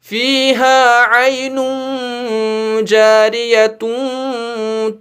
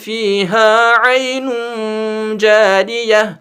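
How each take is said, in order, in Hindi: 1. शब्द 'atun' पर खत्म होता है, आवाज़ बिना रुके आगे चलती है। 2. शब्द 'ah' पर खत्म होता है, उसके बाद रुकना है। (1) "इसको जारियह नहीं पढ़ेंगे क्योंकि हम यहां रुकेंगे ही नहीं" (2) "पढ़ना है जारियह"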